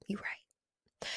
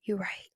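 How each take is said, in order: First: Soft whispered concession. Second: Said in the usual way. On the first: Retold or imitated. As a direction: breathe it out as a quiet admission. Conceding to friends' advice.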